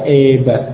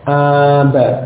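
First: The first vowel is tilted toward e. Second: The first vowel is a plain open a. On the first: The speaker calls it wrong. "Tidak boleh dibaca eba" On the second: The speaker calls it right. "Jadi tetap dibaca aba"

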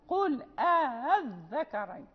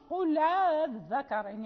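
First: A glottal stop is pronounced right after qul. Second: The glottal stop is dropped, its vowel joins qul. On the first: "إذا قرأنا بقانون" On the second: "إذا قرأنا بورش"

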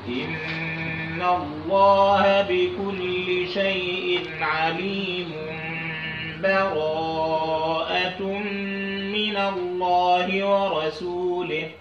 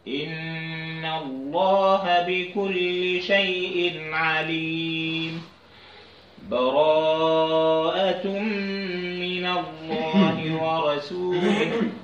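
First: The two phrases run together with no break. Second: A full stop with an audible breath comes between. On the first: "وصل ان انا اوصل اخر البراءه اخر الانفال بالسوره" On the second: "إن أنا أقول عليم وأخذ نفس"

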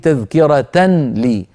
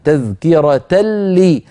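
First: A clear n sound is heard before the l. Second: The n sound merges into the following l. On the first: The speaker calls it wrong. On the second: The speaker calls it right.

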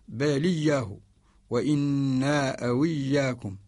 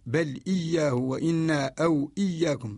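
First: The vowel joins the consonant before, no glottal stop. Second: Each glottal stop is clearly pronounced. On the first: "يأخذ حركة الهمزة فيلقيها على الساكن قبلها ويقرأ بصوت خفيف" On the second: "ويقرأ قالون ... يهمز قالون"

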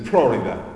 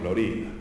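First: The stress is on the first syllable. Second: The stress is on the second syllable. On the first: The name is said the North American way. The speaker calls it wrong. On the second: The name is said as the original Spanish word. The speaker calls it right.

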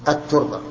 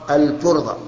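First: The L merges into a doubled T sound. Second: The L of the article is clearly pronounced. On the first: The speaker calls it wrong. "ولا نقول الترضى" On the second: The speaker calls it right. "فيقال في النطق في البيت"

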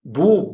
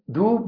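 First: The consonant is a heavy, emphatic d. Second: The consonant is a plain, light d. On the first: The speaker calls it right. "لا ضوب بالضاد" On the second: The speaker calls it wrong. "تحول الضاد في المغضوب إلى دال"

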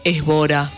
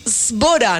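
First: The word begins with an e vowel before s. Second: The word begins directly with the s sound. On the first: The speaker calls it wrong. "no es Sbora" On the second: The speaker calls it right. "no digas la E, es Sbora"

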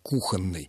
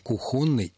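First: The stress is on the first syllable. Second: The stress is on the second syllable. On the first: The speaker calls it right. "Нормативная рекомендация с ударением на первом слоге" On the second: The speaker calls it wrong. "не рекомендуется"

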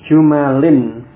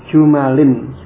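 No difference in how they are said.

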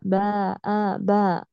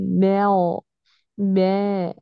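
First: The vowel is fully open, a clear a. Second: The vowel is slightly raised toward e. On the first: The speaker calls it right. "لا باء باء" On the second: The speaker calls it wrong. "تقولي بغو بغو ايه، هذا تقليل"

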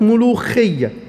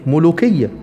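First: The middle consonant is a raspy kh sound. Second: The middle consonant is a hard k sound. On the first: This is the later, changed form of the word. "اتبدلت الكاف للخاء" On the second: This is the original form of the word. "اسمها في الاصل ملوكيه"

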